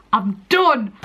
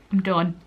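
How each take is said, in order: First: Louder and firmer on the repeat; emphatic I'm done. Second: Said in the usual way. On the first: Real, not acted. To herself after passing the test, louder relieved repeat. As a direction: land it, proud and relieved.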